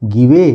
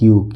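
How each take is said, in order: First: The final E is sounded as a vowel. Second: The word ends without a final vowel. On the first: The speaker calls it wrong. "नहीं" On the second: The speaker calls it right. "ये लिखा है ग्यू"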